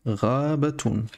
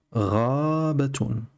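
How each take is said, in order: First: Said in the usual way. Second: "Rabatun" slowly, first syllable stretched long; drawn-out model word. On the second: Shown as a demonstration. Teacher points out the word's first letter, slow "Raaabatun". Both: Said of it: "repérer la lettre Al-Rin au début du mot".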